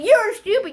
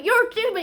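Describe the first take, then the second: First: High loud mocking "You're stupid"; mocking insult. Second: High loud taunting "you're stupid" again; mocking insult. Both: Repeated insult.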